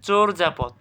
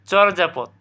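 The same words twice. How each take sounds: First: চোরযাপদ as "chor-japod"; correct pronunciation. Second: Said in the usual way. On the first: Shown as a demonstration. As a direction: round the first vowel of চোরযাপদ to "o". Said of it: "তাহলে এখানে সঠিক উচ্চারণ কী হবে?". (চোরযাপদে "চোর্" ও বর্গীয় জ)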